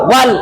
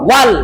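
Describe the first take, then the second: The two takes are said the same way.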